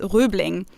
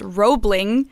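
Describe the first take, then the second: First: It is said with a rounded German ö vowel. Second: It is said with an English-style vowel. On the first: "in German it would be pronounced Röbling" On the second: "the bridge is pronounced Roebling in English"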